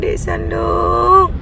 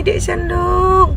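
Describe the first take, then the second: First: A tired mother dragging out her son's name; exasperated drawn-out call. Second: A tired mother dragging out her son's name, once more; exasperated drawn-out call. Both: Real, not acted. Mami calling her slow son, long and exasperated. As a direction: stretch the name out slowly, fed up. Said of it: "menguji tingkat kesabaran Mami".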